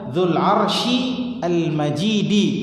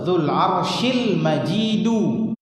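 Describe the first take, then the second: First: The last word ends with an 'i' vowel. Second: The last word ends with a 'u' vowel. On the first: The glory describes the throne. "jadi bisa dibaca Dzul Arsy Al-Majidi" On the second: The glory describes God. "disebut Dzul Arsyil Majidu"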